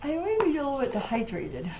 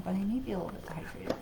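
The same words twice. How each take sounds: First: Said in the usual way. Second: Quick whispered aside; hushed fast repeat. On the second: Real, not acted. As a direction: murmur it fast to yourself, under your breath. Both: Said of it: "forgive me for the yawning".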